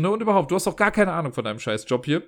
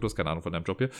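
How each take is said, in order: First: Mildly angry retelling of the retort. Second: Said in the usual way. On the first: Retold or imitated. To the house manager about his job, mock angry. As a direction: tell him off, angrier version. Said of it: "echt sauer geworden". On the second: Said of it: "Ich hab eventuell nicht scheiß Job gesagt".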